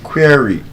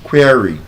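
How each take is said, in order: No difference in how they are said.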